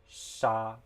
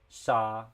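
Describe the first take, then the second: The two takes are said the same way.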